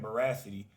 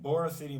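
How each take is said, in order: First: The name sounds like 'veracity'. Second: The name sounds like 'borough city'. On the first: The speaker calls it wrong. "I was saying that wrong" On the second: The speaker calls it right. "I think that's the way I'm supposed to be saying it"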